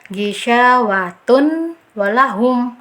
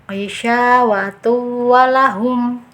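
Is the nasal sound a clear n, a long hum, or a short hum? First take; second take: clear n; short hum. First: The n is pronounced clearly without merging. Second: The nasal hum is short and not held. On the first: "jangan dibaca ijhar ... itu kan ijhar jelas" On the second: "bacaan yang keliru ... kurang ada dengungnya, tidak ditahan"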